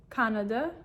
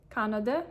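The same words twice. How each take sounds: The two takes are said the same way.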